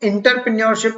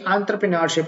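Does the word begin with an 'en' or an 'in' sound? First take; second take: in; en. First: The word begins with an 'in' sound. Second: The word begins with an 'en' sound. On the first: The speaker calls it wrong. "इसको इंटरप्रेन्योरशिप ना pronounce करिए" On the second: The speaker calls it right. "एंटरप्रेन्योरशिप होता है"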